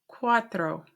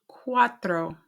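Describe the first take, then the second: Both takes have the same delivery.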